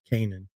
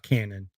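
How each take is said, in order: First: The name sounds like 'Canaan', not 'cannon'. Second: The name sounds like the word 'cannon'. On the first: The speaker calls it right. "that's actually how you pronounce it" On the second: The speaker calls it wrong. "Not Cannon"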